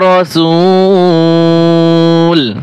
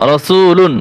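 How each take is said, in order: First: The word stops short on the final 'l'. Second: The word ends with an added 'un' sound. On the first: The reader pauses at this word. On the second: The reading continues into the next word.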